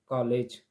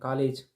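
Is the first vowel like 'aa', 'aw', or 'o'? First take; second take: aw; aa. First: The first vowel is between 'aa' and 'o'. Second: The first vowel is an open 'aa' sound. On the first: The speaker calls it right. "मतलब दोनों के बीच की स्थिति होना चाहिए" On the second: The speaker calls it wrong. "एक तो वो कभी बोल देते हैं कॉलेज"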